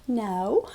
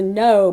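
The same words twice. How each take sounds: First: The no is said gently, not emphatically. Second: The no is said firmly and emphatically.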